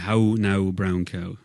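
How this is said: Each vowel glides toward an 'oo' sound. This is how a countryside speaker says it. "every vowel would have an ooh at the end of it for me"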